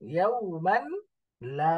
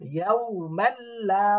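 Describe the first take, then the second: First: The n is heard separately before the l. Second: The n merges into a doubled l sound.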